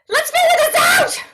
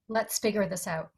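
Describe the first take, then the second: First: It is delivered desperately, with maximum intensity. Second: It is delivered calmly, with low intensity.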